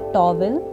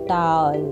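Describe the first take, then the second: First: The vowel glides like 'ow' into a second syllable. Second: The vowel is a single plain 'aw' sound. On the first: The speaker calls it wrong. "गलत बोला जा सकता है" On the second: The speaker calls it right. "इसको सही बोलने का तरीका है"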